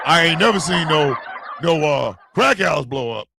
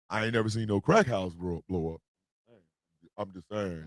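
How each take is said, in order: First: Emphatic restatement. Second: Very low, quiet mumble; muttered aside. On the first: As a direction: say it out firmly so everyone hears. Repeats the aside out loud. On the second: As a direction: say it under your breath, pitched right down. Low aside about crack houses. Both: Real, not acted.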